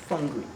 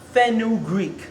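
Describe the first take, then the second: First: The word is said as fun-greek. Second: The word is said as fen-u-greek. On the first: The speaker calls it right. "No, fungreek" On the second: The speaker calls it wrong. "how some people pronounce it is fenugreek, but that's not the right way"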